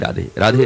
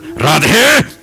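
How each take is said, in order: First: It is said softly and lovingly. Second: It is said harshly and angrily.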